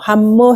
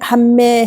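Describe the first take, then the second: First: The word ends with an 'o' vowel. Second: The word ends with an 'e' vowel. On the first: "함모 해도 상관없어요" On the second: "함매 해도 되고"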